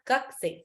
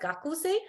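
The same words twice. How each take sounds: First: The u vowel after k is dropped. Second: The u vowel after k is clearly voiced. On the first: "It's pronounced as Gakusei" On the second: "it's written as Gakusei"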